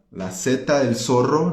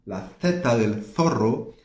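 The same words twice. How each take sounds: First: "la Z del zorro" with S for each Z; Latin American S. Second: "La Z del zorro" with lisped th for Z; Spain th sound. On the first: Teacher showing Latin American usage, Z as S. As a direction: say "seta" and "sorro" in "la Z del zorro". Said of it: "pronunciamos como se fuera S". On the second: Teacher contrasting Spain's way, Z as th. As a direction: say "theta" and "thorro" in "La Z del zorro". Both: Shown as a demonstration.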